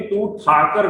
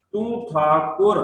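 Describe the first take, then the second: First: ਠਾਕਰ said as thaa-kar, no u sound; wrong way. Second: Slow, with ਠਾਕੁਰ said as thaa-kur, a clear u after ਕ; correct recitation. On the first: Teacher showing the common mistake ਠਾਕਰ in passing. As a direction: drop the u and say ਠਾਕਰ flat. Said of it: "ਇਹਨੂੰ ਤੂੰ ਠਾਕਰ ਨਹੀਂ ਬੋਲਣਾ". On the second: Teacher showing the congregation the right ਠਾਕੁਰ, slow and careful. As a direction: say ਠਾਕੁਰ with the aunkar u sound, slowly. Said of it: "ਕੱਕੇ ਨੂੰ ਔਂਕੜ ਹੈ". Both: Shown as a demonstration.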